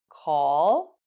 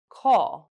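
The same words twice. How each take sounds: First: The pitch rises on the word. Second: The pitch falls on the word. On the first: "with the rising and falling intonations" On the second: "with the rising and falling intonations"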